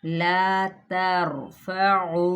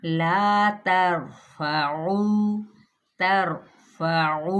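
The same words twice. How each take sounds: First: ला तरफउ with too much trill on र; overrolled ra. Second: ला तरफउ, slow, with a light single tap on र; moderate ra. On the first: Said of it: "ये ज़्यादा हो गई". (ला तरफउ में रॉ ज़्यादा रोल करना) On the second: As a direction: tap the र in तरफउ just once. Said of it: "कितनी मुनासिब रखनी है". (ला तरफउ में मुनासिब तकरार) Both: Shown as a demonstration.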